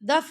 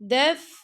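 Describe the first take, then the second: First: The f is cut off without breathy air. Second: The f is released with audible breath. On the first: The speaker calls it wrong. "दफ दफ करके नहीं पढ़ना" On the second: The speaker calls it right. "दफ हम्स करेंगे"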